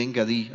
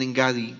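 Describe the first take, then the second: First: "Engadí" with stress on the last syllable dí; stress on the final I. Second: "Engadi" with stress on the middle syllable GA, a grave word. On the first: Preacher giving the other version's reading, final stress. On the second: Preacher reading the place name to the congregation, stress on GA. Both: Shown as a demonstration. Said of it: "Otras versiones ponen la tilde en la I".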